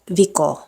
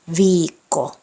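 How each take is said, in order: First: The vowel and the k are short. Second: The vowel and the k are long. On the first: The speaker calls it wrong. "not viko" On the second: The speaker calls it right.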